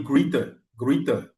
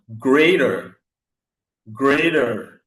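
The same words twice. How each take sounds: First: Greater said as greet-er, long ee; English greater. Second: Greater said as gredé, French vowels, no r; French-style greater. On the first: Shown as a demonstration. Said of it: "Il va dire". (greater prononcé grit, à l'anglaise) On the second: Retold or imitated. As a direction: imitate a French learner saying greater as gredé. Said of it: "quelqu'un va dire". (greater prononcé à la française, gredé)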